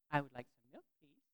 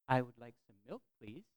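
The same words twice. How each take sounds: First: Put-on child repeating politely. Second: Polite request. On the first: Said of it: "I think he said it right away". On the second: Shown as a demonstration. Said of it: "I would say the sentence that I wanted them to say".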